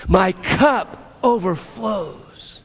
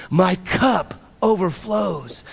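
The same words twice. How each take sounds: First: "My cup overflows" drawn out slowly with conviction; said with belief. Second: Said in the usual way. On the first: Shown as a demonstration. Preacher leading the congregation in "My cup overflows", with conviction. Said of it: "like you believe it". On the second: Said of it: "Say it with me".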